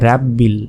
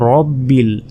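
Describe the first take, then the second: First: The first vowel is an open, long 'a' sound. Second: The first vowel is a rounder, 'o'-like sound. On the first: The speaker calls it wrong. "আমরা অনেকেই বলি যে রাব্বিল, রাব্বিল কিন্তু নয়, রাব্বিলটা ভুল উচ্চারণ" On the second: The speaker calls it right. "বলতে হবে রব্বিল"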